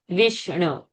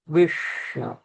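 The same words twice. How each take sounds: First: The sh sound is plain, tongue not curled. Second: The sh sound is retroflex, tongue curled back. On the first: The speaker calls it wrong. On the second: The speaker calls it right.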